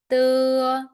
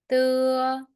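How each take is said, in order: The two takes are said the same way.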